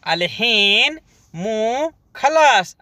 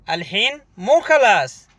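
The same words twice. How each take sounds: First: "अलहीन मो खलास" said slowly, leaning on "खलास"; slow model take. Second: Said in the usual way. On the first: Shown as a demonstration. Teacher slowly models the phrase for Hindi learners. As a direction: drag out "अलहीन मो खलास" for repetition.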